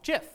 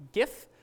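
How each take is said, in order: First: "gif" with a soft g, like j; soft-g pronunciation. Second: "gif" with a hard g, as in gift; hard-g pronunciation. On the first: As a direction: say "gif" as "jiff". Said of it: "might also have heard this pronounced". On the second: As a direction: say "gif" as "ghiff". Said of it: "might also have heard this pronounced gif". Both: Shown as a demonstration.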